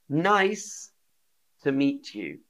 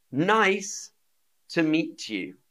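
Both takes have the same delivery.

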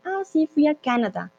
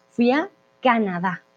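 First: Higher-pitched foreigner's "Canadá", stressed on the first syllable; non-native stress. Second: "Canadá" stressed on the last A; correct final stress. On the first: Acted. Teacher imitating someone who doesn't speak Spanish, "Canadá" stressed early. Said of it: "cuando alguien no habla español". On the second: Shown as a demonstration. Teacher correcting the learner's mistake, "Canadá" stressed on the final syllable. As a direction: hold back, then land on DÁ in "Canadá". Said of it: "Esa tilde en la A".

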